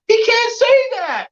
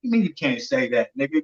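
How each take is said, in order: First: Very high, drawn-out mock holler; squawked high protest, slow and stretched; retold yell. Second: Lower, softer comeback; understated, quiet challenge; low-key retort. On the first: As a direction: imitate an outraged fighter yelling in protest. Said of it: "Tank's yelling out". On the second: Retold or imitated. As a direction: answer back under your breath, unimpressed. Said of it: "I'm like, you know".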